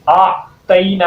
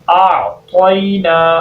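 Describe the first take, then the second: First: The middle syllable sounds like a light 'tai'. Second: The middle syllable sounds like a heavy 'toi'. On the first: The speaker calls it wrong. "ता पढ़ देते हैं, तो की साउंड ही निकालते, तो ये भी गलती है" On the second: The speaker calls it right. "तो कैसे पढ़ेंगे?"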